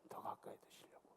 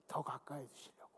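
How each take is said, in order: First: Breathy whispered repeat; whispered prayer phrase, no voice. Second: Quietly, almost to himself; hushed prayerful murmur; soft murmur. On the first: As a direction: drop it to a bare whisper. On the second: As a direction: let the words sink low and soft. Soft repeated prayer phrase. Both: Acted.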